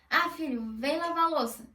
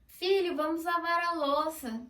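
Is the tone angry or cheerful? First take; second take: angry; cheerful. First: It is said in an angry tone. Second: It is said in a cheerful tone.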